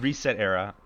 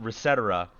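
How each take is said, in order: First: It is said as 'reset' followed by 'era'. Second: It is said as one word like 'et cetera'. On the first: The speaker calls it right. "it's called Reset Era" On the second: The speaker calls it wrong. "there's no one on planet Earth that fucking calls it Resetera"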